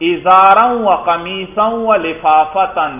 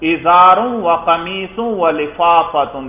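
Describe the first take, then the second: First: The nouns carry the accusative (nasb) case ending. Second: The nouns carry the nominative (raf') case ending. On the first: "دیکھو نصب پڑھا" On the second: "دیکھو رفع پڑھا"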